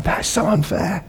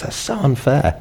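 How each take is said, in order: First: Put-on high, drawn-out childish whine; whiny kid. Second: Adult grumble. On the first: Preacher imitating his kids, high childish whine. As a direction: whine it like a hard-done-by child. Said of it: "I see it with my kids". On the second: Retold or imitated. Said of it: "we have it as adults".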